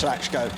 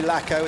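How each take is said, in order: First: The name is said the native way. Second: The name is said the English way. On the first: "my family name is Lachko" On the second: "it's the English pronunciation"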